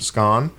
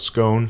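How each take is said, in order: First: Scone is said the British way. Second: Scone is said the American way.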